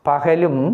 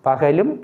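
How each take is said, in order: No difference in how they are said.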